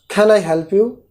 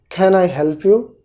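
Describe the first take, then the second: No difference in how they are said.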